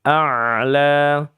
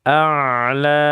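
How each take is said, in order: Both takes have the same delivery.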